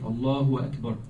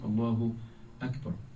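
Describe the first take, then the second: First: A w sound comes before Allah and Akbar. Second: No w sound comes before Allah or Akbar. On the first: The speaker calls it wrong. "adding a wow before the word Allah and the word Akbar" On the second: The speaker calls it right. "The right way to say is"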